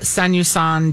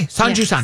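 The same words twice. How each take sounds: First: The middle syllable starts with a Y sound. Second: The middle syllable starts with a J sound. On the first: The speaker calls it wrong. "Why do I always say you?" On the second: The speaker calls it right. "In Japan, they do say the J"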